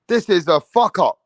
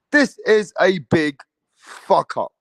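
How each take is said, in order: First: Said in the usual way. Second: Slow down and lean on big; slower, weightier repeat. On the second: Real, not acted. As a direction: drag out This is a big fuck up. Repeats the rant with more weight.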